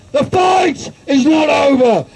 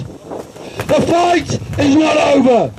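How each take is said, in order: First: Shouted battle cry; rousing shouted repeat of the line; rally shout. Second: Slow, weighty declaration; measured, heavy statement before the shout; slow deliberate. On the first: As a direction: throw it out to the crowd. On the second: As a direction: lay each word down slowly. Repeated rally line, slow take. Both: Real, not acted.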